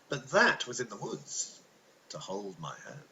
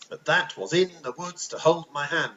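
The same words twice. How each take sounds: First: The word 'in' is unstressed, natural rhythm. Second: The word 'in' is stressed, bouncy rhythm.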